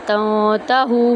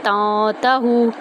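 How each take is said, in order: The two takes are said the same way.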